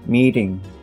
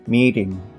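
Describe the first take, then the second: First: The t in meeting is a soft d-like flap. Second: The same.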